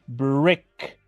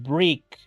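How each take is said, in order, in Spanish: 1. La vocal suena más cercana a una 'e' del español. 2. La vocal suena como una 'i' del español. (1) "Es brick" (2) "Si lo pronunciáramos como en español diríamos brick y eso es incorrecto"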